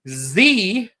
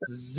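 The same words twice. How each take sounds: First: It is pronounced 'zee', the American way. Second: It is pronounced 'zed', the non-American way.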